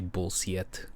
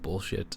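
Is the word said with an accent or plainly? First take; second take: accented; plain. First: The word is said with a foreign accent. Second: The word is said in a plain accent. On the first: It imitates how the mother says it. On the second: It is the usual way to say it.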